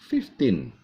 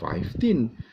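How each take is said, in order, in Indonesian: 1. Suku kata pertama terdengar seperti 'fif'. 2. Suku kata pertama terdengar seperti 'five'. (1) "Tapi seharusnya fifteen" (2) "karena mengacu pada pengucapan angka lima, five"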